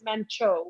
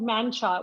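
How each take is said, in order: First: The name ends with an 'oh' vowel. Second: The name ends with an 'ah' vowel. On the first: The speaker calls it right. "the right way to say it is Mancho" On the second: The speaker calls it wrong. "it was called Mancha"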